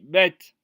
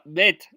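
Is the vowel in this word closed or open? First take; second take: open; closed. First: The vowel is an open e sound. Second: The vowel is a closed e sound. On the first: The speaker calls it right. "on dit bête" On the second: The speaker calls it wrong. "Je ne dis pas bête"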